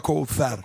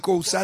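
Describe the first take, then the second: First: It is pronounced with Arabic-style sounds. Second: It is pronounced with Persian-style sounds. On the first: The speaker calls it wrong. "نمیخواد بگه کوثر" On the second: The speaker calls it right. "تو فارسی کوثر دیگه"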